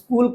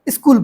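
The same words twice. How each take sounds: First: The word is said without an added sound. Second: The word is said with an extra sound added. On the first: The speaker calls it right. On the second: The speaker calls it wrong.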